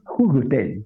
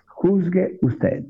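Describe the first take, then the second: First: Said in the usual way. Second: Juzgue drawn out slowly, each syllable weighed; slow, weighty repeat. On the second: Shown as a demonstration. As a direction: let Juzgue usted sink in slowly. (Juzgue usted, lento y con peso)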